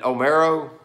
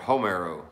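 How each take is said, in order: First: The name starts with a vowel, no H sound. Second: The name starts with an audible H sound. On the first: The speaker calls it right. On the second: The speaker calls it wrong.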